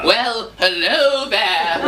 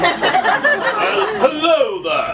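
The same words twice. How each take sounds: First: Slow, stretched copy of a suave hello; drawn-out pupil's imitation; attempted put-on voice. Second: High, drawn-out charmer's greeting; exaggerated coaching demo, pitched up; demonstrated put-on voice. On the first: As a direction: labour through the charmer's greeting. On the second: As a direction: model a slow, swooping suave hello. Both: Shown as a demonstration. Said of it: "try speaking in a voice like this".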